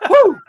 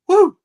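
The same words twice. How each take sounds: First: It is a stronger, more energetic cheer. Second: It is a weak, low-energy cheer.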